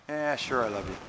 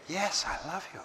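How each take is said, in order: First: Offhand. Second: A sincere "Yes, I love you" with the "Yes" lifted gently and said softly; mean every word and say it softly. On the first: Answering "do you love me?" with a dismissive shrug in the voice. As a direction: toss it off without meaning it. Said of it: "if you say". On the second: Answering "do you love me?" with heartfelt, gentle sincerity. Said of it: "then they believe the totality". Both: Shown as a demonstration.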